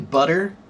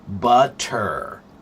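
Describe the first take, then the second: First: The middle sound is a quick D-like tap. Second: The middle sound is a clear T. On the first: This is how most people say it. "do many people say butter? Yeah, even myself" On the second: This is the correct form. "the correct pronunciation is butter. T, t, t"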